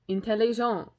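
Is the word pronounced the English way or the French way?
French. The word has a French pronunciation.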